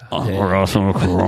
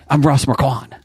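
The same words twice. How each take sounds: First: The voice sounds tired and hungover. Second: The voice sounds normal and alert. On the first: "hungover Ross Marquand" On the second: "your Ross Marquand impression"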